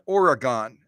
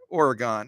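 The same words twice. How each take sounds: First: The word is said with three syllables. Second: The word is said with two syllables. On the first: The speaker calls it wrong. "it's not Oregon" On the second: The speaker calls it right. "it's two syllables"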